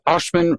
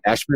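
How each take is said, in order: First: The name is said in a British-sounding way. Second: The name is said in a plain American way.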